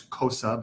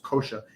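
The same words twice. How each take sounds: First: "kosa" with a plain s, as it looks; "kosa" said with an unsoftened s in the middle; spelling pronunciation. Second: "kosha" with an sh sound in the middle; "kosha", the written s softened to sh; correct Sanskrit pronunciation. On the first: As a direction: read "kosa" by its spelling, s instead of sh. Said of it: "it looks like it's kosa". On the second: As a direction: say "kosha" with sh, not a plain s. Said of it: "but it's pronounced kosha". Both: Shown as a demonstration.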